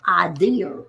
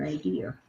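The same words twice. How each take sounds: First: "Idea" said as "idear" with an added r at the end; "Idea" in a New York accent, ending in "er". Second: Said in the usual way. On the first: Shown as a demonstration. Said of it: "that was my New York accent". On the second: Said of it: "when I would say idea and pizza".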